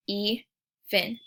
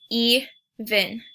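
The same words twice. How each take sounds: First: Even as e then ven, a small gap after the E; syllables split. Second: Said in the usual way. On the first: Shown as a demonstration. Teacher splitting a word into syllables for the class. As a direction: say Even in two beats, e and ven. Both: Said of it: "we can hear that break".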